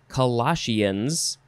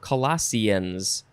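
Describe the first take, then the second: First: The word ends with 'shee-uns', two syllables. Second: The word ends with 'see-uns', using an s sound. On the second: "or Sians"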